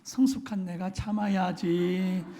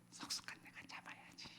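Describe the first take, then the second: First: It is said loudly, for others to hear. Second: It is said quietly, under the breath.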